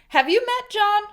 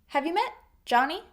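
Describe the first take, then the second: First: It is asked as a sarcastic question. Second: It is asked as a sincere question.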